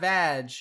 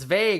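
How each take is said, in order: First: The name rhymes with 'bag'. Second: The name rhymes with 'plague'. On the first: The speaker calls it wrong. "not vag" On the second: The speaker calls it right. "It's vague"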